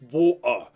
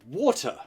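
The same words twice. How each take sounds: First: The middle T is a glottal stop. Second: The middle T is fully pronounced. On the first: It sounds lower class. The speaker calls it wrong. "Glottal T's are for the lower classes" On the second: It sounds upper class. The speaker calls it right. "please pronounce your T's correctly"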